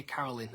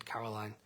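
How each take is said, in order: First: "Caroline" with short final i, "-lin"; Caroline as Carolyn. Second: "Caroline" ending in "-line"; Caroline with long I. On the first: Singer recalling how he used to say it, "Caroline" as "Carolyn". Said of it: "I used to say Caroline". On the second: Singer doubting his pronunciation, "Caroline" ending like "line". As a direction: say "Caroline" so it rhymes with "wine". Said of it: "kinda started doubting myself". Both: Shown as a demonstration.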